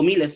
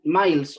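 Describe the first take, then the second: First: "Miles" read as spelt in Spanish, MEE-les; Spanish pronunciation. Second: "Miles" said the English way, one syllable like "mails"; English pronunciation. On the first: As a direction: say "Miles" in two syllables, "mí-les". ("Miles" pronunciado a la española, "mí-les") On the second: ("Miles" pronunciado a la inglesa, "mails") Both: Shown as a demonstration. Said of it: "no sé cómo se pronuncia".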